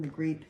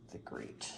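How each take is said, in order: First: Said in the usual way. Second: Murmured under breath while searching; whisper to herself. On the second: Real, not acted. Reader searching the deck for the card name, whispered. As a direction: breathe the name half to yourself, unvoiced.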